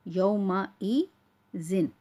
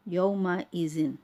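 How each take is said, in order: First: "यौमा ई जिन" slow, with a break before "जिन"; separated syllables. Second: Said in the usual way. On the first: Shown as a demonstration. Teacher breaking up a word for learners, slow and separated. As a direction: hold "ई", pause, then say "जिन". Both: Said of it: "अलग-अलग करके पढ़ रही हूँ".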